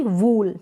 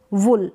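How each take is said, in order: First: वूल with a long oo, as in "pool"; wrong long vowel. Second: वुल with a short u, as in "pull"; correct short vowel. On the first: Teacher contrasting the wrong reading for learners, long vowel. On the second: Teacher showing how to pronounce it, short vowel. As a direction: keep the oo in वुल brief. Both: Shown as a demonstration. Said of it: "ना कि वूल".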